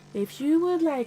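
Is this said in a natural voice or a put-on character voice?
natural. It is said in a natural speaking voice.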